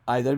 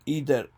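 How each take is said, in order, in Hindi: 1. पहला स्वर 'eye' जैसा बोला जाता है। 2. पहला स्वर 'ee' जैसा बोला जाता है। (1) "आइदर भी बोलते हैं" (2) "मैं मेरी ज़ाती राय में ईदर मैं बोलता हूँ"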